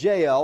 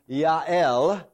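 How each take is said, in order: First: The name begins with a J sound. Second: The name begins with a Y sound. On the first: This is the English form of the name. "So here is Jael" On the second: This is the Hebrew form of the name. "or in the Hebrew"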